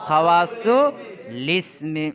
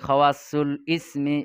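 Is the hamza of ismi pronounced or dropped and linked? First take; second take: dropped; pronounced. First: The hamza is dropped and the L links forward. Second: The hamza is pronounced before ismi. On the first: The speaker calls it right. "কিভাবে পড়তে হবে?" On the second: The speaker calls it wrong. "আমাদের ওস্তাদ শিখিয়ে দিয়েছে"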